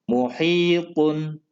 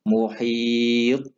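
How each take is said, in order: First: The word ends with a vowel and n sound. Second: The word ends on a bouncing stopped consonant.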